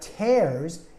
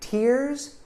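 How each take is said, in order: First: The vowel is a long A sound. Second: The vowel is not a long A sound. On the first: Something is ripped apart. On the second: Drops come from the eyes when crying.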